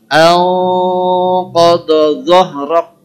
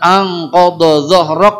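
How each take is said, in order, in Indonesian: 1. Bunyi n ditahan dengan dengung sengau. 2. Bunyi n diucapkan biasa tanpa tahanan sengau.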